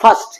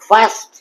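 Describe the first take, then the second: First: The vowel is short and clipped. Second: The vowel is long and drawn out. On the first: The speaker calls it wrong. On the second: The speaker calls it right.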